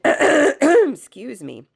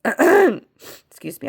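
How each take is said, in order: First: Croaky, slow crone-like rasp; hoarse crone voice. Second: Croaky throat-clearing excuse me; rough, slow excuse me through a cold; hoarse from a cold. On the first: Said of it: "is your crone voice trying to come through me". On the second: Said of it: "I have a cold still". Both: Real, not acted.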